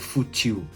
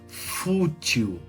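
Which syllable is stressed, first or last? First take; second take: last; first. First: The stress is on the last syllable. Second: The stress is on the first syllable. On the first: The speaker calls it wrong. "Eu não falo fútil" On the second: The speaker calls it right. "agora na paroxítona"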